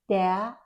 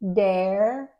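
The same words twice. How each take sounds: First: It is said in a British accent. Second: It is said in an American accent. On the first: "but in British English" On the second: "in American English"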